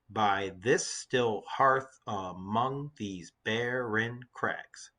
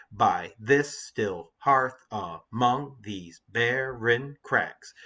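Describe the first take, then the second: First: Very slow, evenly spaced syllables; deliberate syllable-by-syllable verse reading; counting out syllables. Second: Slow beat, "by THIS still HEARTH a-MONG these BAR-ren CRAGS"; da-DUM meter with stress on this, hearth, among, barren, crags; exaggerated iambic rhythm. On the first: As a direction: read it one syllable at a time, softer. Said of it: "let's count the syllables in the lines". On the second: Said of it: "You can hear the, the meter". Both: Shown as a demonstration.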